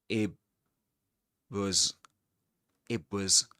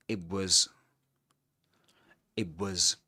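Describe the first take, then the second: Both takes have the same delivery.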